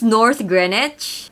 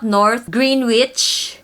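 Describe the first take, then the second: First: The name is said in a shortened local form. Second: Every letter of the name is sounded as spelled. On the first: The speaker calls it right. "this is North Greenwich" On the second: The speaker calls it wrong. "It's not North Greenwich"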